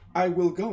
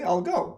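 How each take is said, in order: First: The word 'will' is said in full. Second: The word 'will' is contracted to 'll. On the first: The speaker calls it wrong. "abbreviate and you say I will go. No" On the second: The speaker calls it right. "I say I'll go"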